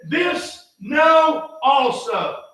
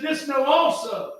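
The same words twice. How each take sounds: First: "This know also" shouted, high and drawn out word by word; very slow shouted verse. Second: Each word of "This know also" drawn out and leaned on; slow stressed verse. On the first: Preacher to congregation, hammering the verse in a slow shout. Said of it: "he said". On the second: Preacher to congregation, slow weighty reading. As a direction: read "This know also" slowly, giving every word weight. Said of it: "He said". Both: Shown as a demonstration.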